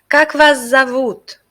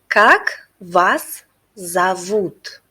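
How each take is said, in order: First: It is said fast. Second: It is said at a normal pace.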